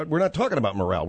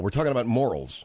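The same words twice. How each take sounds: First: "morale" stressed on its second syllable; quick line landing on muh-RAL in "morale"; morale, as mispronounced. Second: "morals" stressed on its first syllable; lower, landing on MOR-uls in "morals"; morals, as corrected. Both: Shown as a demonstration.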